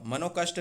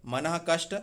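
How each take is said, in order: First: मनोकष्ट joined with an O; wrong form मनोकष्ट. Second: मनः कष्ट with breathed H before क; correct form मनः कष्ट. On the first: Teacher rejects the wrong compound, mistaken form. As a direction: say मनोकष्ट, mano before kasht. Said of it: "मनोकष्ट नहीं". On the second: Teacher corrects मनोकष्ट, visarga form. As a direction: say मनः कष्ट, manah then kasht. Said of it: "तो मनः कष्ट होगा". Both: Shown as a demonstration.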